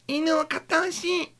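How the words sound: It is said in a cute anime-girl voice.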